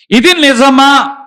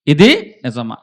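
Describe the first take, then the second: First: Loud, high, slow ఇది నిజమా with weight on ఇది; emphatic question. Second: Said in the usual way. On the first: Shown as a demonstration. Preacher voicing Socrates' question to the church, loud and slow. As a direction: drive the question home to the crowd. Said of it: "ఇది నిజమా అన్నాడట". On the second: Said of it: "ఆయన ఏమంటున్నాడంటే".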